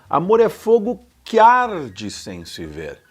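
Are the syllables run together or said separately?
together. Que and arde run together smoothly.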